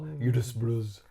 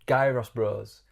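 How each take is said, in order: First: The word begins without any G sound. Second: The word begins with a hard G sound. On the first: The speaker calls it right. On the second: The speaker calls it wrong.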